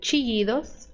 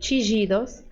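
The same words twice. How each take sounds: First: The ll is said like an English y. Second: The ll is said like a soft zh sound. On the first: "som de I" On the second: "som de J"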